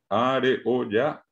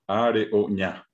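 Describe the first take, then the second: First: The final syllable starts with an oral y sound. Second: The final syllable starts with a nasal ñ sound. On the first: The speaker calls it wrong. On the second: The speaker calls it right.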